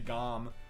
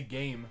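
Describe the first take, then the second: First: The word has an 'ah' vowel. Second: The word has an 'ay' vowel. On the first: The speaker calls it wrong. "you don't say gom" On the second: The speaker calls it right. "you say game"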